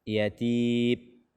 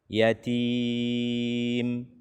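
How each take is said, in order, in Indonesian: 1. Huruf m akhir tidak memiliki dengung sengau. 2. Huruf m akhir memiliki dengung sengau yang sedang. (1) "sehingga tidak ada suara yang keluar dari hidung" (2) "tidak terlalu cepat"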